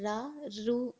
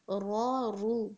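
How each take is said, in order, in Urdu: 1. ra کی آوازیں ہلکی اور پتلی ادا ہوتی ہیں۔ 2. ra کی آوازیں بھاری اور بھرپور ادا ہوتی ہیں۔ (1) "را رو نہیں پڑھیں گے" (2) "بلکہ را رو"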